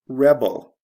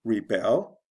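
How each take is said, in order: First: "rebel" as the noun REB-el, loud first syllable; stress on first syllable. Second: "Rebel" as the verb re-BEL, rising; stress on second syllable. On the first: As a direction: punch REB, then fall in "rebel". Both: Shown as a demonstration. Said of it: "the stress changes in the same way".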